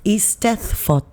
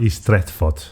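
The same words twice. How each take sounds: First: Eisteddfod slow, ees-TETH-vod; careful Welsh pronunciation. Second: Eisteddfod with a throaty Dutch edge; too Dutch. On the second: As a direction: Eisteddfod said with guttural Dutch-like sounds. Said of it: "you're going too Dutch with it". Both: Shown as a demonstration.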